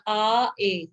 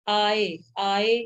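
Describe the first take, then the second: First: "आ, ए" as two separate vowels, aa then e; teacher spelling out "आ, ए" vowel by vowel; vowels sounded separately. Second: "आए" drawn out, aa sliding into e; slow joined demo of "आए"; vowels blended slowly. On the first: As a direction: say "आ, ए" apart, each vowel clearly sounded. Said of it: "इन सबको बोल लेना". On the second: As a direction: stretch "आए" slowly so the e sound emerges. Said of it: "ए की sound आ रही". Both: Shown as a demonstration.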